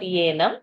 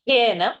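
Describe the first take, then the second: First: The word begins with a y sound. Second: The word begins with an h sound. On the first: The speaker calls it wrong. "not येनं" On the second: The speaker calls it right.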